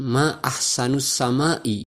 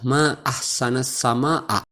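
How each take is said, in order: First: The words end with 'u' and 'i' vowels. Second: The words end with 'a' vowels. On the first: It asks what is most beautiful in the sky. The speaker calls it wrong. "dengan mengkasrohkan hamzah" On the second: It expresses admiration of the sky. The speaker calls it right. "dengan mempatahkan hamzah"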